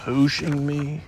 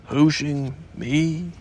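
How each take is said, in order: First: Puzzled question, rising on Hooshing; Hooshing said with mild surprise; surprised. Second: Slow, heavy repeat of Hooshing me; ponderous donkey echo of Hooshing. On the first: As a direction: Eeyore caught off guard by Hooshing me. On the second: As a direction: drag Hooshing out gloomily. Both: Acted. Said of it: "said Eeyore in surprise".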